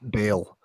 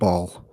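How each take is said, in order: First: The vowel sounds like the one in bail. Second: The vowel sounds like the one in ball. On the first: The speaker calls it right. "apparently, they wanted to be said Bail" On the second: The speaker calls it wrong. "I got made fun of in Sunday school for pronouncing it ball"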